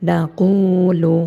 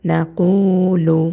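The two takes are said the same way.

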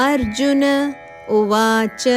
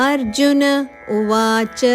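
No difference in how they are said.

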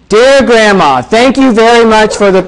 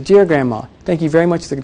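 First: The voice is loud and projected outward. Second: The voice is soft, warm and intimate. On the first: It is aimed at the whole room. The speaker calls it wrong. "You don't say it that way" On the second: It is meant for someone who matters. The speaker calls it right. "That's your handwriting voice"

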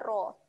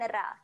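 First: The R sound is thick and heavy. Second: The R sound is thin and light. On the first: The speaker calls it right. "Bunyi dia adalah ra" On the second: The speaker calls it wrong. "bukan ra"

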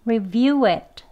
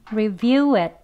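First: 'It' has a full vowel and a released t. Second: The final t is held and not released. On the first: "강형 발음" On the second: "t 하고 치경 이제 치지 않고 붙이고만 끝납니다"

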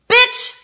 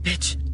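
First: It is said in an angry tone. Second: It is said in a frightened tone.

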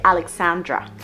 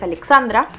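First: The name is pronounced the English way. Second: The name is pronounced the Spanish way. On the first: "en inglés se dice Alexandra" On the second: "mi nombre en español es Alexandra"

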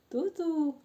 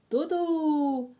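First: The sound is said quietly. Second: The sound is said loudly. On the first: "А тихо" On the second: "А як він подає сигнал голосно?"

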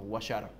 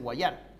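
First: The stress is on the first syllable. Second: The stress is on the last syllable. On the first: This is how the local fans say the name. "no está mal dicho de los gauchos" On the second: This follows the written accent rules. "si te pones a pensar en la acentuación, debería ser Guayar. Al no tener tilde"

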